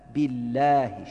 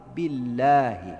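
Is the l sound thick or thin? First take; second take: thin; thin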